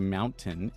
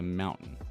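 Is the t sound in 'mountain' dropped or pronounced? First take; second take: pronounced; dropped. First: The t sound in the middle is pronounced. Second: The t sound in the middle is dropped. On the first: "It's not a mountain" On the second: "we never say the T"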